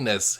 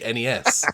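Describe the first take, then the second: First: It is said as a single word. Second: Each letter is said separately. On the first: This is the usual way at home. "they don't say N E S here" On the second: This is the usual way here. "they say N E S. They have to spell things out"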